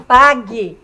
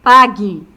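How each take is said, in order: First: "pague" said as PA-gue, the U silent. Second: Louder "Pague", U skipped straight to E; "Pague" with silent U. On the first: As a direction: say "pague" with no U sound. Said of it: "quando eu falo quero, pague". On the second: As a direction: jump over the U in "Pague". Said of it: "perceberam que daqui eu dou um salto". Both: Shown as a demonstration.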